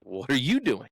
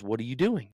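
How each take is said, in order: First: "you" stressed in a retort. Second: Said in the usual way. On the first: Retold or imitated. Golfer turns his buddy's question back on him, stress on "you".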